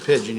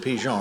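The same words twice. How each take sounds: First: It is pronounced like the English bird word. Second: It is pronounced with a French sound. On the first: The speaker calls it wrong. "you wouldn't say it's a pigeon" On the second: The speaker calls it right. "If we were in Paris ... you'd say there's a pigeon"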